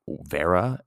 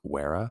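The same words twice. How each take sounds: First: The word begins with a V sound. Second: The word begins with a W sound.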